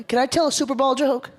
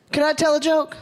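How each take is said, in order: First: Said in the usual way. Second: Calling out to the crowd. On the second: Shown as a demonstration. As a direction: shout it to get the room answering. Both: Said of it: "we need crowd participation here".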